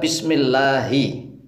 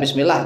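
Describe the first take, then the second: First: The final 'hi' syllable is clearly pronounced. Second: The word ends without the final 'hi' syllable. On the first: The speaker calls it right. "Hi-nya dibaca" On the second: The speaker calls it wrong. "Ya jangan bismillah begitu jangan"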